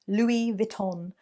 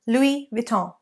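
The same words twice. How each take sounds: First: The final n sound is clearly pronounced. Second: The final n sound is dropped. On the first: The speaker calls it wrong. "I have heard mispronounced as Louis Vuitton" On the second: The speaker calls it right. "that N sound needs to be removed. So it should be Louis Vuitton"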